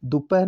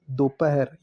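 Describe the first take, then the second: First: दोपहर clipped to "dupah", with u; wrong form. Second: दोपहर with o and full "-her": "do-pa-her"; correct form. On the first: Teacher showing students the wrong form: "dupah" for दोपहर. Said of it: "दोपहर नहीं". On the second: Teacher giving students the correct form: दोपहर as "do-pa-her". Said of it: "ये शुद्ध है". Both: Shown as a demonstration.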